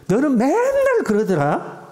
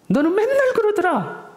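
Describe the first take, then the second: First: Higher, slow accusing whine; slow, high mock accusation; blaming. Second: Much higher, sneering accusation; shrill-pitched mock put-down; belittling. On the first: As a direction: needle them with the blame. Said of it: "비난하는 거죠". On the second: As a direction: put them down with a high jeer. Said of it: "상대방을 깎아내리는 거죠". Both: Shown as a demonstration.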